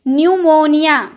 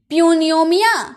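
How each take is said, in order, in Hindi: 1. यह शब्द n ध्वनि से शुरू होता है। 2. यह शब्द p ध्वनि से शुरू होता है। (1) "पी साइलेंट होता है" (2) "प्यूनियोमिया नहीं"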